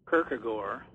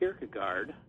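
First: The name is said with a Danish pronunciation. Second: The name is said with an American pronunciation. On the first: "the Danes would say Kierkegaard" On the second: "Americans say Kierkegaard"

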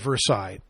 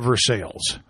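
First: It is said the French way, like 'ver-sigh'. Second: It is said the Kentucky way, like 'ver-sails'.

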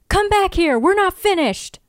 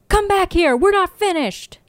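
Both takes have the same delivery.

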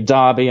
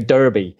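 First: It is said the British way. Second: It is said the American way. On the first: "The Brits say Derby" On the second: "the Americans say Derby"

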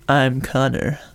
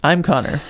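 First: It is said in a seductive way. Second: It is said in a plain, unseductive way.

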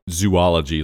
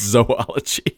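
First: The first syllable sounds like the word 'zoo'. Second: The first syllable sounds like 'zoh', not 'zoo'. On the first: The speaker calls it wrong. "not like zoology, like the study of zoos" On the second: The speaker calls it right. "It's zoology"

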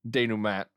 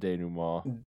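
First: It is said with a plain English pronunciation. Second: It is said with an exaggerated French pronunciation. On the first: "if you... were to just learn it from reading, denouement would be what you'd say" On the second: "since it's French, you can give it a little extra on the denouement"

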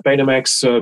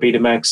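First: It is pronounced the American way. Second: It is pronounced the British way.

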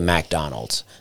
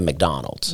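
First: The name is said in a local Southern accent. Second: The name is said in a standard accent. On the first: "I used to say McDonald's" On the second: "instead of McDonald's"

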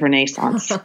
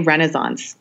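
First: The word is said with a British pronunciation. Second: The word is said with an American pronunciation. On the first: "instead of Renaissance" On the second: "I'm American, so I say Renaissance"

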